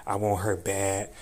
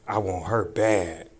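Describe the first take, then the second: No difference in how they are said.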